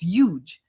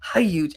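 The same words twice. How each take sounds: First: The starting H sound is dropped. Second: The starting H sound is pronounced. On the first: The speaker calls it right. "I don't say the H. It's huge" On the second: The speaker calls it wrong. "not huge"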